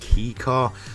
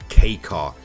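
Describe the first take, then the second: First: The first word sounds like 'key'. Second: The first word sounds like 'kay'. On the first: The speaker calls it wrong. "a lot of people do miss, I guess, pronounce it as key car" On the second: The speaker calls it right. "the real pronunciation I'm pretty sure of is K car"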